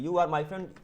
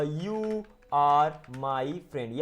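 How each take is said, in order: First: Said in the usual way. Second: Very slow, every word separated. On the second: Shown as a demonstration. Teacher answering "what will you say?" for learners, word by word. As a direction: lay out each word for learners to follow.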